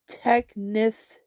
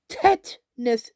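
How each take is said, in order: First: The word is said with a k sound inside. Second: The word is said with a t sound inside. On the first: The speaker calls it wrong. "the bitch even got me saying it wrong" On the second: The speaker calls it right. "There's no K at the end, or the the middle and the end"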